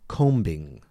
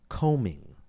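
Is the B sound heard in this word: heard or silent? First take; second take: heard; silent. First: The B is released after the M. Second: The B is silent after the M. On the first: The speaker calls it wrong. "and not combing" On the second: The speaker calls it right. "the B remains silent. We say combing"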